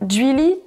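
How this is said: Vannetais pronunciation, starting with a palatalized dj sound. "En Pays Vantais, sur le continent, on pourra entendre"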